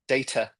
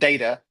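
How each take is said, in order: First: The t is a crisp, clear t sound. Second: The t is a soft, flapped d-like sound. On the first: The speaker calls it right. "It it has a T" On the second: The speaker calls it wrong. "Not data"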